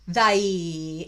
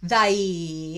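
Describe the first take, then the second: First: The vowel glides like the word eye. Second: The vowel glides like the word eye.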